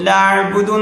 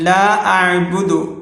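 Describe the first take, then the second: First: The two words run together without a catch. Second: A glottal catch separates the two words. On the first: The speaker calls it wrong. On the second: The speaker calls it right.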